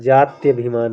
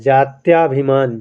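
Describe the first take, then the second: First: A short vowel follows 'jaty'. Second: A long 'aa' vowel follows 'jaty'. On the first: The speaker calls it right. "या पर कोई मात्रा नहीं की नहीं रहेगी" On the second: The speaker calls it wrong. "गलत है"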